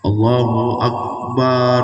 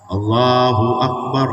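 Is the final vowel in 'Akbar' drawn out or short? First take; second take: drawn out; short. First: The vowel in the last syllable is drawn out. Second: The vowel in the last syllable is kept short. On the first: The speaker calls it wrong. "Salah itu. Itu salah. Kenapa? Karena barnya itu tidak ada panjang tandanya" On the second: The speaker calls it right. "jangan panjang"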